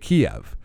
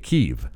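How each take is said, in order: First: The name is pronounced the Russian way. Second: The name is pronounced the Ukrainian way. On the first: It follows the Russian usage. "the Russians say Kiev" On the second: It follows the Ukrainian usage. "The Ukrainians say Kyiv"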